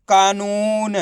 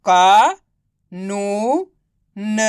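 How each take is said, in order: First: कानून without gaps, long vowels kept; blended word. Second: Drawn-out का, नू, न with gaps between; syllable by syllable. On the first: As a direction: say कानून joined up as one word. (कानून को मिलाकर एक शब्द में) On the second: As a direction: sound out का, नू, न one by one. (का, नू, न को अलग-अलग खींचकर) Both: Shown as a demonstration. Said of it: "तो मिलके बन जाएगा".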